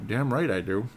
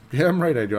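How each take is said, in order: First: Said in the usual way. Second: Higher and louder, punching damn; cocky repeat of Damn right I do; emphatic boast. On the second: Real, not acted. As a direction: say it again with swagger. Boasting about NBA trivia.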